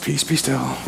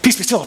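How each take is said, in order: First: It is said in a slow, calm way. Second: It is said in a hurried, excited way.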